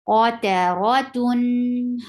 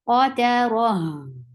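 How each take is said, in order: First: The word ends with a nasal 'tun' sound. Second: The word ends with a flowing breathy 'h'. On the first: The reader continues without stopping. "Tun is um, give the wasut" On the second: The reader stops at this word. "So this circle ta will be changed into ha whenever it gets um, waqf"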